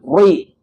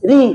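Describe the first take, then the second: First: The r is heavy and thick, emphatic. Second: The r is light and thin, unemphatic. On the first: The speaker calls it wrong. "bukan ri" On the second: The speaker calls it right. "tipis ri"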